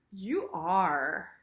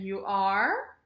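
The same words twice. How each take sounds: First: "are" full and falling; agreeing "You are". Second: "are" swooping up at the end; questioning "You are?". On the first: Teacher agrees that someone is scared, falling "are". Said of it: "So I'm agreeing with you". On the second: Teacher demonstrates the question form, rising "are". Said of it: "it's a question". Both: Shown as a demonstration.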